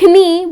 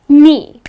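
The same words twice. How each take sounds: First: A k sound is heard at the start. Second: No k sound is heard at the start. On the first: The speaker calls it wrong. "it's not knee" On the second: The speaker calls it right. "The letter K at the beginning of the word goes silent"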